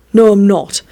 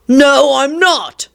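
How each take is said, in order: First: Restrained sibling contradiction; stubborn refusal. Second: Higher, drawn-out contradiction; escalated stubborn refusal. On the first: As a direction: refuse without raising your voice much. First refusal in sibling quarrel. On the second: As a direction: dig in, slower and higher. Escalated refusal in sibling quarrel. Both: Acted.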